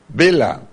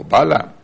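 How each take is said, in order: First: Balaam with first syllable as "bay"; first pronunciation variant. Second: Balaam with an open "ba" first syllable; second pronunciation variant. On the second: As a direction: say Balaam as BAH-lam. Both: Shown as a demonstration. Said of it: "how you want to pronounce".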